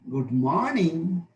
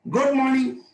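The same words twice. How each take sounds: First: The pitch falls and then rises again. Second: The pitch falls from a high starting point. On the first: "Fall rise" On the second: "High fall"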